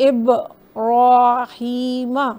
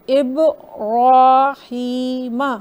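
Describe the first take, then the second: No difference in how they are said.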